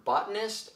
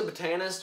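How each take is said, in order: First: "botanist" said as BOT-uh-nist; "botanist" with the weight on BOT; standard pronunciation. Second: "botanist" said as buh-TAN-ist; "botanist" with the weight on TAN; unsure pronunciation. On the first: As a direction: stress the first syllable of "botanist". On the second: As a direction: stress the middle syllable of "botanist". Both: Real, not acted. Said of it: "how it's pronounced".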